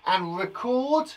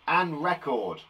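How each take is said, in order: First: "record" stressed on the second syllable, re-CORD, slowly; "record" as in recording something, said re-CORD; teacher saying "record" as the verb re-CORD. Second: "record" stressed on the first syllable, REC-ord; "record" as in a music record, said REC-ord; teacher saying "record" as the noun REC-ord. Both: Shown as a demonstration. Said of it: "we say it slightly differently".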